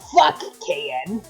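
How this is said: It is said in an annoyed tone.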